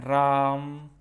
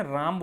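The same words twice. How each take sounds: First: राम with the आ held very long; prolonged vowel. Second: Said in the usual way. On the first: Shown as a demonstration. Teacher demonstrating an over-long vowel, राम hugely drawn out. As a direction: stretch राम out like calling a name. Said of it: "इसमें सबसे ज़्यादा समय लगाते हैं". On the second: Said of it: "जैसे हम बोलते हैं, राम बोलते हैं".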